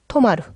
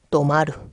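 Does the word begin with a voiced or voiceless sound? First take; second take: voiceless; voiced. First: The word starts with a voiceless t sound. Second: The word starts with a voiced d sound. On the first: "원래는 토마루" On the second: "땡땡 붙어서 도마루"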